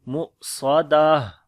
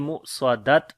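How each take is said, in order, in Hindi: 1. शब्द 'ah' आवाज़ के साथ खत्म होता है। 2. शब्द एक हल्की कटी हुई 't' आवाज़ के साथ खत्म होता है। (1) "बल्कि पढ़ेंगे" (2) "और ना ही पढ़ेंगे मु स्वादत, दोनों गलत हैं"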